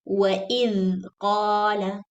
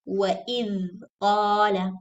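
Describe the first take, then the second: First: The 'dh' buzzes, like 'th' in this. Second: The 'dh' buzzes, like 'th' in this.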